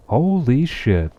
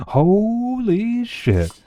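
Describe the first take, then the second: First: Slow, drawn-out higher holy shit; louder, dragging it out in disbelief; real amazement at who just showed up; stunned. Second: Very slow, much higher holy shit, wailed out; laughing amazement at a friend's news; stretched disbelief. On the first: Streamer sees a favorite viewer. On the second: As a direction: drag it out in a squeaky wail of shock. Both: Real, not acted.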